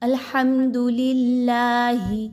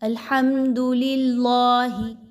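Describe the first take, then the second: First: The L sound is light and thin. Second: The L sound is heavy and thick. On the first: The speaker calls it right. "इस अल्लाह के हर्फ को बारीक पढ़ेंगे। कैसे?" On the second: The speaker calls it wrong. "इसको अब मोटा नहीं पढ़ना। ... ऐसा करना दुरुस्त नहीं है"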